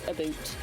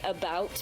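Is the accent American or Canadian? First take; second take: Canadian; American. First: It is said in a Canadian accent. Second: It is said in a plain American accent. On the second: "my about"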